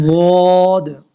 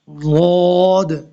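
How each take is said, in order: Both takes have the same delivery.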